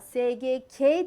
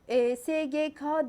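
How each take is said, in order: First: The final letter is pronounced 'ke'. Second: The final letter is pronounced 'ka'. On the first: The speaker calls it right. "Ama SGK diye okuyacağız ve eki K'ye göre getireceğiz" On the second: The speaker calls it wrong. "biz bunu günlük hayatta SGK diye okuyoruz"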